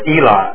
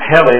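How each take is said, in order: First: The name begins with a vowel sound. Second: The name begins with an H sound. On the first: The speaker calls it right. "but his name is Eli" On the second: The speaker calls it wrong. "not Heli like helicopter"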